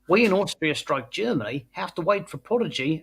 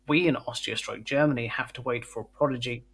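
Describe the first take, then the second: First: It is read in a put-on foreign accent. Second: It is read in the speaker's ordinary accent.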